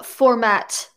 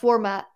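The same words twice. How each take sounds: First: The final T is dragged out and emphasized. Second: The final T is short and unemphasized. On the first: The speaker calls it wrong. "You like drag the T out" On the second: The speaker calls it right. "instead of format"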